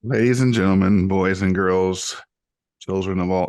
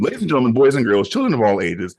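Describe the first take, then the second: First: Light ringmaster announcement, held back; ringmaster intro. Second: Full-force ringmaster, louder; big booming circus announcer call. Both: Pretend. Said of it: "We're going hard".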